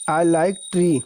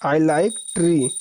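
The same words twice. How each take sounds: First: Said in the usual way. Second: I like tea drawn out very slowly; slow repeat. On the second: Shown as a demonstration. Teacher repeats the English line for students to copy, very slow. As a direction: repeat it slowly so they can write. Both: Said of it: "चाय पसंद है".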